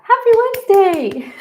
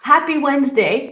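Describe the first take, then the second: First: Much higher, louder sing-song greeting; excited. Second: Said in the usual way. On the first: Shown as a demonstration. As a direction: belt it out with joy.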